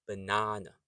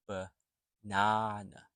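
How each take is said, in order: First: "banana" in one smooth go, buh-NAH-nuh; said quickly. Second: "banana" slowly, buh, pause, NAH-nuh; slow syllable breakdown. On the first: Teacher shows the quick version, "banana" joined up. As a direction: run "banana" together without a break. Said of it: "when you say it quickly". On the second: Teacher breaks the word down, "banana" slow and in pieces. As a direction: split "banana" after the first schwa and stretch it out. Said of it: "So when you say it quickly". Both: Shown as a demonstration.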